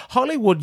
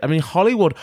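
First: Name called out much higher; exclaimed name. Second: Said in the usual way. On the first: Real, not acted. Podcast host calls out to the queen, high exclaimed name. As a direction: sing out the name like a campy call-out.

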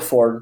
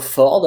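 First: Ford said the English way; English pronunciation. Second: Ford said the French way; French pronunciation. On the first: Car expert showing the other variant, English pronunciation. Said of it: "d'autres vont dire Ford". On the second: Car expert showing one local variant, French pronunciation. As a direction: say Ford with a French r and clear final d. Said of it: "certains vont dire Ford un peu". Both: Shown as a demonstration.

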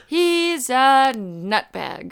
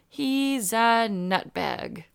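First: Slow, stiff Brad Pitt line; bad acting. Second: Slow, drawn-out Brad Pitt line; deadpan movie line, very slow; bad acting. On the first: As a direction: drag the line out, flat acting. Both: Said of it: "delivered it like that too".

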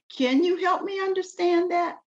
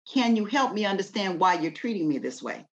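First: Sweet, much higher questioning voice; polite gentle tone. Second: Said in the usual way. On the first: Shown as a demonstration. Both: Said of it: "it's how you say it and the tone you say it in".

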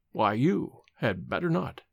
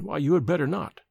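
First: Slow and low, "you" set apart and stressed; measured warning with weight on "you"; very emphatic. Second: Said in the usual way. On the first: A narrator's reading. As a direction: lean hard on "you", then pause and fall. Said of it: "he repeated very emphatically".

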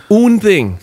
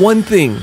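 First: "Un" said as the French article; French word swapped in. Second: Said in the usual way. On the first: Acted. Son correcting himself to Papa, French "Un". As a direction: say "Un" the French way, firmly. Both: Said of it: "I heard you speaking Russian and then French".

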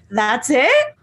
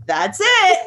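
First: Imitated surprise, rising at the end; mock celebrity question. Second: High-pitched confirming imitation; mock nurse answer. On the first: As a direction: ask it like an underwhelmed star. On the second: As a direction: answer high, falling at the end. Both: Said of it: "the interaction of the".

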